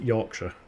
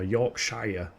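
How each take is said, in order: First: It is said with a British Yorkshire pronunciation. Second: It is said with an American pronunciation. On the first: "but we pronounce it" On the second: "I think Americans pronounce it"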